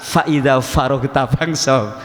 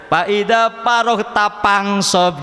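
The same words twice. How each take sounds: First: Slow, "Faida faroh" with a clear f sound; careful correct reading, "faroh" with f; correct pronunciation. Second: Sundanese accent, slow, "paroh" with p instead of f; drawn out slowly in Sundanese accent, "Faida paroh" with p for f. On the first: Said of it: "Ya belajarlah". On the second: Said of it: "orang Sunda katanya". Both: Shown as a demonstration.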